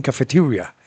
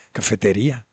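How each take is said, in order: First: "cafeteria" with an American r and English vowels; American pronunciation. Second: Said in the usual way. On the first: Retold or imitated. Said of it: "Ellos dicen cafeteria". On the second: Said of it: "Eso viene del español".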